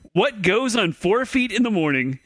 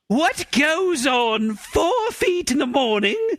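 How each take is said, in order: First: It is read in a plain, ordinary voice. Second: It is read in a dramatic, mystical voice.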